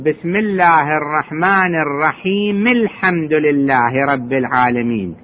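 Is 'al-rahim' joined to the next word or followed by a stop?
joined. The final m is voiced with an i-vowel, running on. The verses are read continuously. "يطلع الكسرة مالت الميم"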